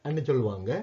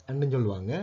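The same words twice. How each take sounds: Both takes have the same delivery.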